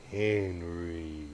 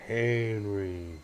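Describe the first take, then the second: First: Whisper. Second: Said in the usual way. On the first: Real, not acted. Calling the dog softly.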